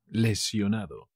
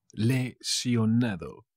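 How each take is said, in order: First: Said in the usual way. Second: "Lesionado" drawn out in separate pieces; slow, syllable by syllable. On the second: Shown as a demonstration. Teacher repeating a word for learners, slow and broken up. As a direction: break "Lesionado" up slowly.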